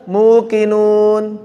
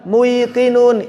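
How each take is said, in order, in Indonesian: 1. Suku kata pertama adalah vokal oo panjang. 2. Suku kata pertama punya bunyi y sebelum q. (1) "Ditukar aja... biar gampang"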